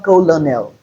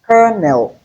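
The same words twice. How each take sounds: First: Colonel as three syllables, co-lo-nel; mispronounced colonel. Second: Colonel as two syllables, KER-nel; correct pronunciation of colonel. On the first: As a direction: colonel read as it is spelt, L voiced. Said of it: "It's not colonel". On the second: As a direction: say colonel just like "kernel". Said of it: "It is colonel". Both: Shown as a demonstration.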